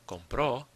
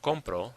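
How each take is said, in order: First: The stress is on the last syllable. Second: The stress is on the first syllable. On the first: "the stress is on the end" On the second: "This is different from compro, which means I buy"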